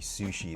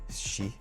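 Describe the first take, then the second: First: The u vowel after the s is pronounced. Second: The u vowel after the s is dropped. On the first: The speaker calls it wrong. "they don't say sushi" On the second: The speaker calls it right. "they say shi"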